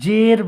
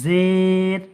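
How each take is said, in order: First: The vowel is short, not drawn out. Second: The vowel is slightly drawn out. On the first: The speaker calls it wrong. "জের বলবেন না" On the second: The speaker calls it right. "জের শব্দকে একটু টান দিয়ে পড়তে হবে, যেমন জের"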